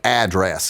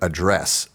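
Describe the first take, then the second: First: The stress is on the first syllable. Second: The stress is not on the first syllable. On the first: This is how people in Texas say it. "the emphasis is always on the first syllable of every word" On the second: This is how people outside Texas say it. "instead of"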